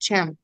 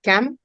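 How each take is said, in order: First: The word begins with a ch sound. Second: The word begins with a k sound. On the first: This is the local spoken form. "यहाँ हम लोग बोलते हैं शम" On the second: This is the classical form. "वहां पे यूज होता है कम"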